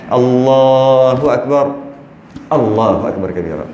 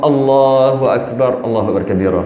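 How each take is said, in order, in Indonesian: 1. Ada jeda singkat yang memisahkan kedua frasa. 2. Bacaannya terus tanpa jeda di antara kedua frasa. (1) "Berhenti kejap tu namanya saktah"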